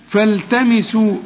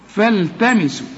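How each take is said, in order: Both takes have the same delivery.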